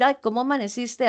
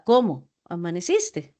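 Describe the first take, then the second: First: "Ay, ¿cómo amaneciste?" quick and lilting, rising on ay; sweet caring greeting, fast; fond greeting. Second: "¿Cómo amaneciste?" lower, falling, no warmth; curt flat-toned question; dry greeting. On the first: Teacher demonstrates an affectionate greeting to students. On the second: Teacher demonstrates a cold greeting to students. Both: Shown as a demonstration. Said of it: "es muy diferente decir".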